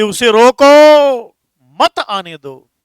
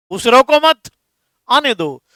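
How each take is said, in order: First: "रोको" loud and drawn out, long pause, then "मत आने दो"; pause after रोको. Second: "रोको मत" run together high and loud, pause, then "आने दो"; pause after मत. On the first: Teacher shows students how punctuation changes meaning, pausing after रोको. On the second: Teacher shows students the opposite meaning, pausing after मत. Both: Shown as a demonstration. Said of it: "इसीलिए विराम चिन्ह का प्रयोग किया जाता है".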